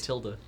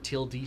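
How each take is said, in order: First: The word is said in a plain, everyday way. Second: The word is said with exaggerated, overly careful pronunciation. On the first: "called the tilde" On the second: "Or tilde, some people overpronounce it"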